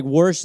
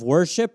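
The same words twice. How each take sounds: First: Worsh clipped short, wər-sh; worsh, the ship dropped. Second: Said in the usual way. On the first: Shown as a demonstration. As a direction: cut worsh off the front of worship. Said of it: "this was gonna start with". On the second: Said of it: "instead of".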